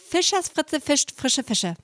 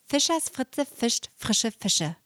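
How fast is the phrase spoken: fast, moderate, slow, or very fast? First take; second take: fast; moderate. First: The phrase is spoken fast. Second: The phrase is spoken at moderate speed. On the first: "Noch schneller" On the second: "Ein bisschen schneller"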